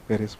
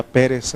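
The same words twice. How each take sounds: First: Pérez said as pe-RES, stressed at the end; stress on last syllable. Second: Pérez said as PE-res, stressed at the start; stress on first syllable. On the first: Teacher reading the written form, Pérez stressed on the last syllable. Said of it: "acento en la E". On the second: Teacher showing the accented form, Pérez stressed on the first syllable. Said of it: "no tiene acento? Si no, sería Pérez". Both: Shown as a demonstration.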